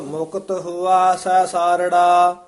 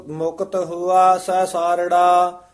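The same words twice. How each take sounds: The two takes are said the same way.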